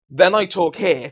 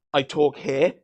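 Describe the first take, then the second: First: Louder and slower demo. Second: Said in the usual way. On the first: Shown as a demonstration. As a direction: push the voice up a level. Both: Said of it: "I need to remember that".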